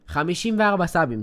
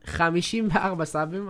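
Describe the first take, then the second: First: Excited outburst. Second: Said in the usual way. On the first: Real, not acted. Shocked at low sub count.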